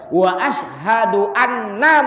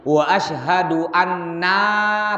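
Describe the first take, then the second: First: The final vowel of anna is cut short. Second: The final vowel of anna is drawn out long. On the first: The speaker calls it right. "Langsung enanya, enggak ada panjang sedikit" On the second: The speaker calls it wrong. "Kadang-kadang ada orang salah begini nih. Wa asyhadu anna panjang"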